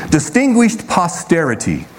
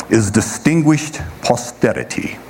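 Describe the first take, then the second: First: Said in the usual way. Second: Mock posh English accent on distinguished posterity. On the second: Shown as a demonstration. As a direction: put on a playful English accent. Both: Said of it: "that's my English accent".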